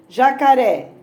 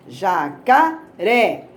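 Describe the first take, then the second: First: Said in the usual way. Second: "jacaré" broken slowly into ja, ca, RÉ; ja-ca-RÉ with gaps, landing on RÉ; syllable by syllable. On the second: Shown as a demonstration. Teacher showing the tonic syllable of "jacaré", slowly separating each syllable. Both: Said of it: "Pode ser falando ou batendo palma".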